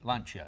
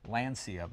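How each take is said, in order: First: The name is said with a non-American pronunciation. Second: The name is said with an American pronunciation. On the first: The speaker calls it right. "but it's Lancia, isn't it?" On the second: The speaker calls it wrong. "said Lancia because it sounded American"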